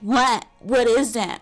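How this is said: It is said in an annoying put-on voice.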